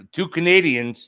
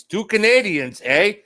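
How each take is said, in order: First: Said in the usual way. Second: Higher, hammed-up Canadian accent with a tagged-on eh; mock Canadian accent. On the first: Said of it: "[name] is now talking to Laura". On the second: Host teasing two Canadian guests, mock Canadian accent. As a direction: tease it like a joking Canadian.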